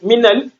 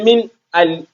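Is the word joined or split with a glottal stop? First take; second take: joined; split. First: The words run together without a glottal stop. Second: The words are split by a glottal stop. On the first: The speaker calls it right. "I said minal" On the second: The speaker calls it wrong. "I did not say min al"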